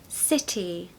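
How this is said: The middle T is a clear, soft T. "the T in the middle of words is very pronounced"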